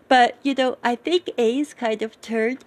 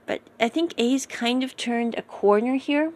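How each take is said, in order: First: Words stretched by a yawn. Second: Said in the usual way. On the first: Real, not acted. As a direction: talk through a yawn. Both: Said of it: "sorry, yawning here".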